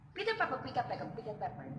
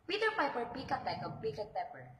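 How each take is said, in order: First: It is said quickly, at a fast speed. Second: It is said at a normal, unhurried speed.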